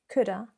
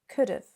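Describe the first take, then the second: First: The 'have' shrinks to a plain 'a' vowel. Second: The 'have' shrinks to a short 'v' sound. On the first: "It can become even weaker, particularly in more informal, relaxed situations" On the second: "So it sounds something like this"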